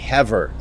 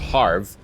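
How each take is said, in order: First: The name is not said to rhyme with Favre. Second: The name is said to rhyme with Favre. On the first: The speaker calls it right. "that said that is actually Havre" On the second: The speaker calls it wrong. "the way I said it in the last episode was Harv, because I was thinking the Green Bay Packers old quarterback, Brett Favre"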